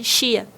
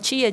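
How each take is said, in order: First: The word begins with a ch sound. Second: The word begins with a plain t sound. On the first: The speaker calls it wrong. "Ela chamava a minha irmã tia de Chia" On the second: The speaker calls it right. "a minha irmã tia"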